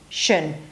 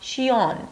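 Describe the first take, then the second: First: The ending is a short 'shun' with a schwa. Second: The ending is 'shion' with an extra vowel. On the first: The speaker calls it right. "you drop again to shun" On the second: The speaker calls it wrong. "don't pronounce it as shion"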